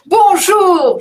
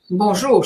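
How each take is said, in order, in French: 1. La salutation sonne joyeuse. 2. La salutation sonne professionnelle. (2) "je suis professionnelle"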